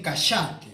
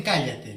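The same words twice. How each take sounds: First: "cállate" said as "cáshate", ll turned to sh; sh sound for the ll of "cállate", Argentine style; Argentine pronunciation. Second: Said in the usual way. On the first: Shown as a demonstration. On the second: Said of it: "no dicen".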